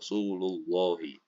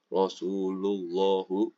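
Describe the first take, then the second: First: The word ends with an 'ee' vowel. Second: The word ends with an 'oo' vowel. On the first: The speaker calls it right. "harus dibaca Rasulullahi" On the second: The speaker calls it wrong. "nggak boleh dibaca Rasulullahu"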